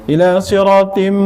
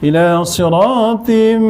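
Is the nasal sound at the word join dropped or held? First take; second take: dropped; held. First: It is read quickly with the nasal sound dropped. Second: The nasal sound is held clearly at the join. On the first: The speaker calls it wrong. "baca laju eh ... Tak ada dengung" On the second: The speaker calls it right. "dengung ya, jangan lupa dengung"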